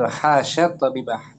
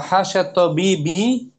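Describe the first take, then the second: First: The last word ends with an 'ah' sound. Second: The last word ends with an 'i' sound. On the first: The first word acts as a verb. "Tabibah dibaca mansub, berarti hasya sebagai fi'il madi" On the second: The first word acts as a preposition. "berarti hasya harfu jar"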